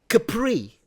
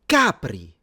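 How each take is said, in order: First: The name is said the French way. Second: The name is said the Italian way. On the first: The speaker calls it wrong. "not Capri. This ain't France" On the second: The speaker calls it right. "off of the coast of Naples"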